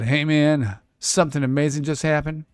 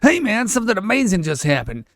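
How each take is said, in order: First: It is read in the speaker's ordinary voice. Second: It is said in a put-on character voice.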